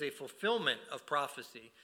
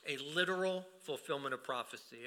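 First: Said in the usual way. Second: "literal" stressed as the key added word. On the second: Real, not acted. Preacher restating the fulfillment of prophecy, stress on "literal". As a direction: lean on "literal", set it apart from the rest. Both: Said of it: "I'm emphasizing the word literal".

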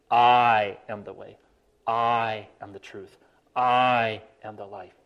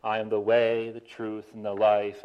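First: "I" leaned on, slow and deliberate each time; stress on I. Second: Even singsong reading, no word stressed; poetic bounce. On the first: Preacher shows how Jesus really meant it, stressing "I". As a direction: hit the word "I" in every phrase, slowly. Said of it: "The emphasis is on "I". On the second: Preacher shows the usual lilting reading. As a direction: lilt it: "I am the way, the truth, and the life". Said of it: "Jesus didn't say, and we always do this when we read the verse". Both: Shown as a demonstration.

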